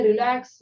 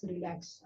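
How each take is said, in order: First: Firm call. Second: "relax" let go almost to nothing, much softer; soft release. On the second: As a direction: breathe "relax" out gently as the tension drops. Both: Shown as a demonstration. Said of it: "अभी इसको भी बोलिए".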